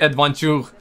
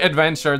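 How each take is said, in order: First: The word is said with a French accent. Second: The word is said with an English accent. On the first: "they will say adventure" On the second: "They won't say adventure"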